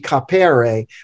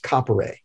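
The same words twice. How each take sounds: First: The stress is on the second syllable. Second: The stress is on the first syllable. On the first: The middle vowel would be long. The speaker calls it wrong. "if it had the long mark, it would be capere" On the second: The middle vowel is short. The speaker calls it right. "since it doesn't have the long mark, it's capere"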